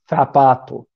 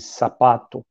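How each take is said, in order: First: It has a Spain-style 'th' sound. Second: It has a Latin American 's' sound.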